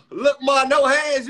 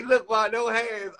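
First: Mock shout. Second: Said in the usual way. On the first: Mocking a famous catchphrase. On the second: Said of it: "He ain't say".

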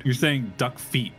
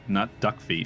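First: "duck feet" slowed, with odd emphasis on duck; odd stress. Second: Said in the usual way. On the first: Retold or imitated. Friend mocking streamer's phrasing, oddly stressed "duck feet". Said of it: "putting the emphasis on that weird". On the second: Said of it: "you're emphasizing the wrong syllable".

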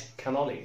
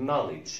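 First: "knowledge" with the K sounded, ke-nolledge; wrong pronunciation. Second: Said in the usual way. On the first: Shown as a demonstration. Teacher showing what it is not called, mispronounced with a sounded K. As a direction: add a voiced K before the n in "knowledge". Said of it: "ما اسمهاش". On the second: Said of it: "اسمها knowledge".

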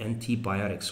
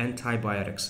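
First: "antibiotics" starting an-tee; British pronunciation. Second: "antibiotics" starting an-tie; American pronunciation. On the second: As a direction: say the "anti" in "antibiotics" to rhyme with tie. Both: Shown as a demonstration. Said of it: "Americans pronounce it as antibiotics".

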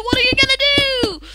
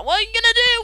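First: High, fast, silly repeat of the line; mock silly voice. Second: Said in the usual way. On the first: Mocking the chaos of the match in a high goofy voice.

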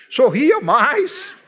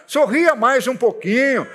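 First: Drawn out slowly, with a laugh; smiling slowly. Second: Said in the usual way. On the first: Shown as a demonstration. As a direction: stretch out "sorria mais" slowly, laughing. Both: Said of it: "seja um pouquinho mais simpático".

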